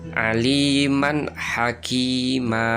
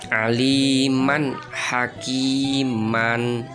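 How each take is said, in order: First: The last word ends with a long vowel. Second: The last word ends with an n sound. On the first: "dibaca mad" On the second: "ini kan bacaannya seperti ini"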